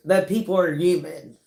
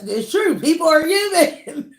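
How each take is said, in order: First: Said in the usual way. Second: Higher, louder affirmation; raised, punchy declaration; emphatic insistence. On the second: Real, not acted. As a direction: insist on it, voice lifting high. Correcting herself emphatically, then laughs.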